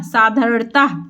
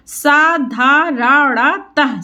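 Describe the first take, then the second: First: Said in the usual way. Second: साधारणतः spelled out slowly as सा-धा-र-ण-तः; slow syllable by syllable. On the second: Shown as a demonstration. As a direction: sound out साधारणतः one syllable at a time. (साधारणतः धीरे-धीरे अक्षर तोड़कर)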